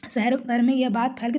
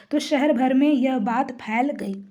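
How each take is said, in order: First: Said in the usual way. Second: Slow reading with weight on भर; stress on भर. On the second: Shown as a demonstration. Teacher reading the example sentence, stressing भर. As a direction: lean on भर, slowly. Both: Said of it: "ये भर शब्द पर जो है जोर दिया जा रहा है".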